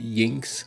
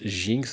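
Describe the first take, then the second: First: The name begins with a Y sound. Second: The name begins with a J sound. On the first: "le J se prononce ye" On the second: "Je sais pas si l'autrice aurait voulu qu'on prononce Jinx"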